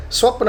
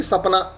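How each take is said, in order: First: స్వప్న with joined "sw" and "pn" clusters; careful Sanskrit "swapna" for స్వప్న; original Sanskrit form. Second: సపన with no clusters, "sa-pa-na"; simplified colloquial form. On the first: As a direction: say స్వప్న tightly as "swap-na". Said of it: "ఇది స్వప్న అని పలకలేరు". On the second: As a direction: say సపన as three easy open syllables. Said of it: "పలకలేరు కాబట్టి సపన". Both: Shown as a demonstration.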